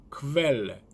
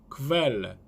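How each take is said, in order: First: The k is followed by a v sound. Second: The same.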